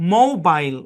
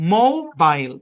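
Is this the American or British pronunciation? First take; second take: British; British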